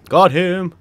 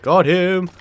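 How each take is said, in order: Both takes have the same delivery.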